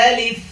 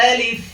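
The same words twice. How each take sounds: No difference in how they are said.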